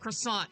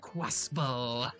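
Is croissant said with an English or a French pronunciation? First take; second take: English; French. First: It is said with an English pronunciation. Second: It is said with a French pronunciation. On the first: The speaker calls it wrong. "it's not pronounced croissant" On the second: The speaker calls it right. "That's how you actually pronounce it in French"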